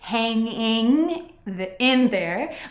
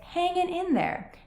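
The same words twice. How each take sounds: First: The final g sound of hanging is pronounced. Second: The final g sound of hanging is dropped. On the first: The speaker calls it wrong. "we don't say" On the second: The speaker calls it right. "we tend to leave off the final G"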